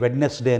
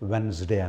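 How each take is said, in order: First: The middle d is sounded clearly. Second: The middle d is silent. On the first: The speaker calls it wrong. "వెడ్నెస్డే అని పలకూడదండి" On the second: The speaker calls it right. "వెన్స్డే అనాలి"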